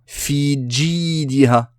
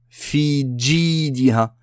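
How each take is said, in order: No difference in how they are said.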